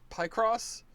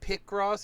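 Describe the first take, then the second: First: The stress is on the second syllable. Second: The stress is on the first syllable. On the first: The speaker calls it right. "You put the emphasis on the cross" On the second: The speaker calls it wrong. "not on the P"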